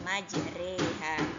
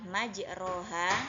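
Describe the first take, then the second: First: The second syllable's vowel is tilted toward 'e'. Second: The second syllable has a plain open 'ro' vowel. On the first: The speaker calls it right. "pada pelafalannya kita baca majreha" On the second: The speaker calls it wrong. "Tulisan yang sebenarnya adalah majroha"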